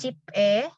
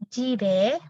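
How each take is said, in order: First: The middle consonant is a p sound. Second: The middle consonant is a soft b sound. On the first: The speaker calls it wrong. "bukan jipe, bukan bukan P ya" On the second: The speaker calls it right. "langsung ke suku kata berikutnya"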